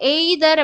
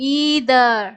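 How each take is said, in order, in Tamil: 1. முதல் உயிரெழுத்து நீண்ட 'ee' அல்ல. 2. முதல் உயிரெழுத்து நீண்ட 'ee' தான். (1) "நம்ம either அப்படின்னு படிப்போம்" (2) "இங்க வந்து இதுக்கு ஈங்கிற சவுண்ட் தான்"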